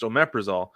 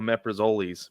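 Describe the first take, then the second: First: The name is said in its usual pronunciation. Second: The name is said following its spelling. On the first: "it's pronounced omeprazole" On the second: "we used to call it omeprazoles because of how it's spelled"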